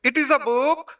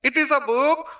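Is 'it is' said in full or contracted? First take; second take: full; full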